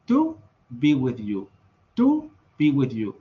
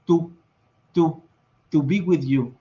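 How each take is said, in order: First: "to" with tongue on the ridge behind the teeth, slow; English alveolar T. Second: "to" with Spanish dental T, tongue on the teeth. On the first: Teacher showing English T, alveolar and slow. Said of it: "Ellos dicen". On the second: Teacher showing the wrong T, Spanish dental. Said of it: "ellos no dicen". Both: Shown as a demonstration.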